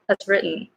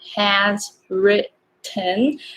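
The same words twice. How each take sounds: First: The phrase is said quickly and run together. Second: The phrase is said slowly and carefully. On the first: The speaker calls it right. "more like has written" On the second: The speaker calls it wrong. "Not has written"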